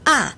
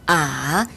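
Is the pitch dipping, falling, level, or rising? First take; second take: falling; dipping. First: The pitch falls sharply from high to low. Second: The pitch dips low, then rises. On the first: "사 성" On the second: "삼 성"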